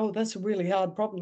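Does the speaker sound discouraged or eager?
discouraged. It sounds discouraged and ready to give up. The problem is treated as too hard to solve. The speaker calls it wrong. "then you don't say"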